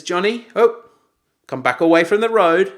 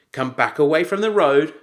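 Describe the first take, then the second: First: Put-on dad raising his voice at a child; firm, louder warning call; raised voice. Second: Raised voice. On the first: Dad calls his son back from the road, raised voice. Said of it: "Raised voice". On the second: Retold or imitated.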